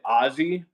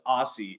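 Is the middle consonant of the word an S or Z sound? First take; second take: Z; S. First: The middle consonant is a buzzing Z sound. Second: The middle consonant is a hard S sound. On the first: "like a Z sound" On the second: "I say it with like a hard S"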